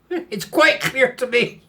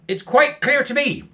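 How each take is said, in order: First: It is said in a low, growling voice. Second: It is said in a plain, ordinary voice. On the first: "Woof growled" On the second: "said Woof"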